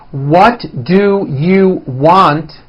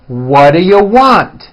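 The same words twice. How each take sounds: First: Each word is said fully and separately. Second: The words are reduced and run together.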